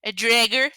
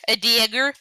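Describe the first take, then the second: First: "dragger" with an extra R, louder and questioning; mispronounced dagger. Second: "dagger" said louder with no R after the D; loud, questioning "dagger" without the stray R; corrected pronunciation. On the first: Retold or imitated. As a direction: echo the slip "dragger", R after the D. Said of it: "Is that what you called it?". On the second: Real, not acted. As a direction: fix the slip: "dagger", D straight into A. Correcting the dragger slip.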